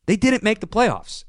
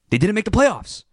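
First: "didnt" punched high; second take, stress moved to "didnt"; emphasis on didn't. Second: "playoffs" hit high and hard; first take, stress on "playoffs"; emphasis on playoffs. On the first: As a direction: hit "didnt" this time. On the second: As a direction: land on "playoffs". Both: Real, not acted. Repeats point with new stress.

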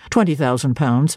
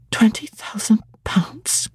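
First: Lower, offhand "Twenty thousand pounds" as a trifle; Rivers' low offhand voice. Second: Slow whispered "Twenty thousand pounds" in disbelief; stunned whisper. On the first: Clergyman telling Jane her fortune, offhand and low. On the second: Jane repeating her inheritance to herself, whispered. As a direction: breathe "Twenty thousand pounds" slowly, awestruck. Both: A narrator's reading.

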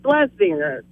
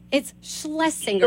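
First: Schlesinger clipped, missing the first sh as plesinger; timid try at Schlesinger; hesitant attempt. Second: Schlesinger said slowly and clearly; slow model pronunciation. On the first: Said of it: "I'm not confident enough". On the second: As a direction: teach Schlesinger syllable by syllable. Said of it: "let's work on your confidence". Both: Shown as a demonstration.

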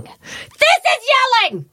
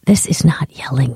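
First: Sudden high-pitched scream; demonstrated yell. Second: Low, restrained mommy voice; controlled non-yelling tone. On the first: Mom showing little kids what yelling is, screamed. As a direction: burst into a full yell to show the difference. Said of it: "And I was like". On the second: Mom answering little kids' complaint, low and controlled. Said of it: "It's the tone". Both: Retold or imitated.

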